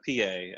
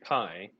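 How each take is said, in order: First: The name is two syllables, like 'pee-ay'. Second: The name is one syllable, like 'pie'. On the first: It sounds a little cooler. "I've heard people pronounce it uh, P A" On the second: It sounds like the word for a food. "I would also first read pie and then think that sucks because it sounds like food"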